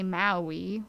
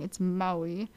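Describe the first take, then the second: First: "Maui" said MAL-wee, mainland style; mock wrong pronunciation. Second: "Maui" said MOW-ee; correct Hawaiian pronunciation. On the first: Vlogger imitating tourists, wrong pronunciation. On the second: Vlogger correcting viewers, Hawaiian pronunciation. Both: Shown as a demonstration. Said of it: "which is wrong".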